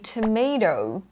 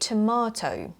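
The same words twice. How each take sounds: First: The middle vowel sounds like 'may'. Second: The middle vowel is long and open, like 'mah'. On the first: "instead of saying tomato" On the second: "you say tomato"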